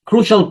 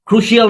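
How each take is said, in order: First: The ending is said as one syllable, shal. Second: The ending is said as three sounds, shee-al. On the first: The speaker calls it right. "শল" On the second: The speaker calls it wrong. "যত শিয়াল আছে ইংলিশে সব হয়ে যাবে শল"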